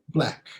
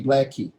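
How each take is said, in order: First: Said in the usual way. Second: "blackie" with an ee added after the K; extra final vowel. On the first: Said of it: "two syllables". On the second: Shown as a demonstration. Teacher imitating students' mistake, "blackie" with an added end vowel. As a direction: say "blackie" as two syllables, like a learner. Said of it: "students tend to add a vowel sound".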